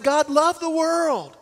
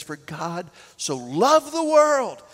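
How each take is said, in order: First: "loved" lifted high and drawn out; stress on loved. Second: Said in the usual way. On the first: Shown as a demonstration. Preacher to congregation, punching "loved". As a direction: lean hard on "loved", slowly. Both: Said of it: "not hated the world".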